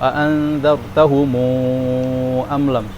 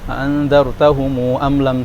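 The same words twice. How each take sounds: First: The final 'mu' vowel is held moderately long. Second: The final 'mu' vowel is held very briefly. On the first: "yang kedua" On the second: "qasrul mad"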